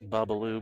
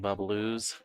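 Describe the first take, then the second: First: The name ends without an s sound. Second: The name ends with an s sound. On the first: The speaker calls it right. "it's just Babaloo Billiards" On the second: The speaker calls it wrong. "I've been saying Babaloo's all weekend"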